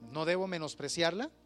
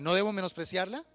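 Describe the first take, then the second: First: It is said at normal volume. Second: It is said louder.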